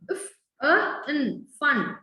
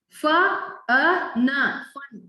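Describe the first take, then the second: First: Each consonant sound is said bare, no added vowel. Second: Each consonant sound has an added vowel after it. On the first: The speaker calls it right. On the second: The speaker calls it wrong.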